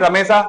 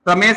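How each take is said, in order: First: The name ends with an added a vowel. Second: The name ends on the consonant sh. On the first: This is the colloquial village form of the name. The speaker calls it wrong. "गांव में रमेशा" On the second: This is the standard, pure form of the name. The speaker calls it right. "शुद्ध उच्चारण तो क्या है, रमेश है"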